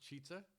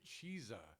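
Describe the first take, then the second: First: The first syllable sounds like chiz. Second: The first syllable sounds like cheese. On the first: This is how the speaker assumed it was said. "I assumed it was pronounced chizza. It's got two Z's" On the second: This is how the restaurant staff said it. "they pronounced it cheesa"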